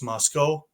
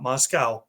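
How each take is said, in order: First: It is said the way the Idaho town says it. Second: It is said the way the Russian city is named. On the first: It names the town in Idaho. The speaker calls it right. "It's Moscow" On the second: It names the city in Russia. The speaker calls it wrong. "not Moscow. Moscow's in Russia"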